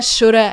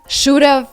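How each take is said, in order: First: The word ends with a weak uh sound. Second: The word ends with a clear v sound. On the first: "they say woulda, shoulda" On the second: "instead of would've, should've"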